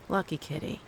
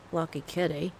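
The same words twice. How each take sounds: First: Said in the usual way. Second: Put-on a half-hearted try at an Aussie accent; imitating Cyrus in a faint Australian accent; Australian accent attempt. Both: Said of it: "I can't do the accent".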